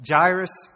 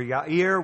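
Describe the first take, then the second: First: "Jairus" said JY-russ, the English J, punched loud. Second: "Yair" said yah-EER with a Y, not a J; Hebrew Yair. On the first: Preacher contrasting the English and Hebrew names, loud pronunciation. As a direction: hit the English "Jairus" hard before the correction. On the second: Preacher offering the Hebrew name as the right one, careful pronunciation. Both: Shown as a demonstration. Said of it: "I'll call him Yair because that's his proper name".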